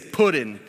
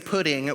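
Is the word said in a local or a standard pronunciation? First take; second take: local; standard. First: It is said in the speaker's local regional pronunciation. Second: It is said in the standard, non-local pronunciation. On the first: This is how people back home say it. "I'm from the Northern X, so ... we say Puddin" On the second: This is how outsiders say it. "we don't say pudding"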